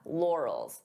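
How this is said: The word is said smoothly as one unit. "pronounce it as one"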